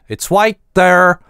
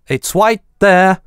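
First: It is said in an American accent. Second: It is said in a non-American accent.

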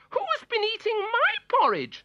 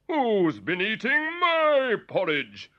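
First: It is said in a high, squeaky voice. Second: It is said in a deep, booming voice.

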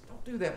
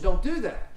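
First: It is said softly and quietly. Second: It is said more loudly.

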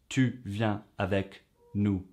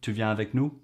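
First: The voice falls at the end. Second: The voice rises at the end.

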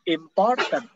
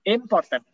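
First: The stress is on the second syllable. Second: The stress is on the first syllable. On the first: "Yang kedua jadi" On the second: "Pertama, misalnya pertama"

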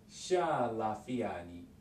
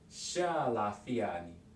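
Both takes have the same delivery.

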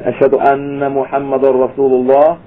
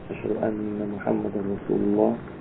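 First: It is said in a louder voice. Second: It is said in a low voice.

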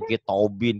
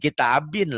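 First: The first vowel sounds like an o. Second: The first vowel sounds like an a. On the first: The speaker calls it wrong. "Mentang-mentang O-nya" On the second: The speaker calls it right. "Kitabin lah"

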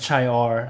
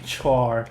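First: The word begins with ch, like chee-or. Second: The word begins with a ch sound, like chore. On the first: "หรือ" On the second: "แต่ว่าหลายๆคนอาจจะอ่านว่า"

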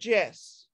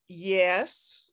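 First: The word begins with a 'j' sound. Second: The word begins with a 'y' sound. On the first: The speaker calls it wrong. "not Jess" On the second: The speaker calls it right. "we would call this yes"

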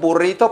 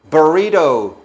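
First: It is said with a Spanish pronunciation. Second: It is said with an English pronunciation. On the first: "Porque es un burrito" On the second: "en inglés se dice burrito"

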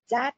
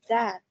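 First: The first sound lacks the tongue between the teeth. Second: The first sound has the tongue between the teeth. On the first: The speaker calls it wrong. "Không phải là that nhá" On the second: The speaker calls it right. "mà that. ... đặt cái lưỡi của con ở giữa hai răng này"

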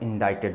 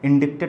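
First: No k sound is pronounced before the t. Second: A k sound is pronounced before the t. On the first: The speaker calls it right. "जिसमें सी silent होता है" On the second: The speaker calls it wrong. "इंडिक्टेड मत पढ़ना"

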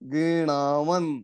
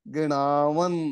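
Both takes have the same delivery.

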